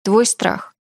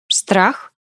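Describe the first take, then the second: First: Said in the usual way. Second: "Страх" lifted into a rising question; asking back. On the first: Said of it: "заключил я". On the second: A narrator's reading. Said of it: "переспросила она".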